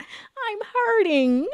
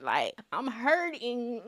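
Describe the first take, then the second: First: Much higher, slow wail broken by laughter; laughing mock wail. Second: Said in the usual way. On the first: Joking to viewers about her friend's Saturn return, laughing high wail. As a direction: wail it like a joke sob, laughing through.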